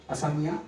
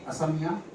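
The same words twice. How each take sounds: First: असमिया said as "samiya", dropping the first a; असमिया clipped to "samiya"; wrong way. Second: असमिया said fully as "a-sa-miya" with every syllable; असमिया spelled out in sound, "a-sa-miya"; right way. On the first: Teacher saying असमिया to the class the wrong way, clipped. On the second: Teacher correcting the class, saying असमिया fully and carefully. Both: Shown as a demonstration. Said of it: "असमिया नहीं".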